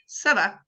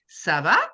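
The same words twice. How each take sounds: First: It is said as an answering statement. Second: It is said as a question.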